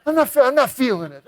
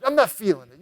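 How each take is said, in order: First: Higher, quick, stammering back-out; a scared guest backing out fast; nervous refusal. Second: Said in the usual way. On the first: Retold or imitated. Frightened guest refusing his brother at the burning building.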